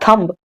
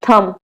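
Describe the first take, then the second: First: The word ends with an audible b sound. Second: The word ends in m with no b sound. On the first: The speaker calls it wrong. "गलत है, it is totally wrong" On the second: The speaker calls it right. "थम, not थंब"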